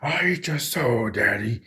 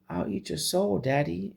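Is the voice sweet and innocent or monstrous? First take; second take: monstrous; innocent. First: It is said in a monstrous, demonic voice. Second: It is said in a sweet, innocent voice.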